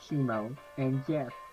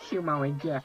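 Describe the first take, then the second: First: A put-on voice like a gruff cartoon dad. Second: A put-on voice like an excitable cartoon kid. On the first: The speaker calls it wrong. "that was Peter Griffin" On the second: The speaker calls it right. "That was my best impression of Clarence"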